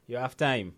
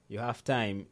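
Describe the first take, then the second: No difference in how they are said.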